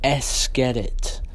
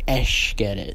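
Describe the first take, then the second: First: The first word ends with a plain 's' sound. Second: The first word ends with an 'sh' sound.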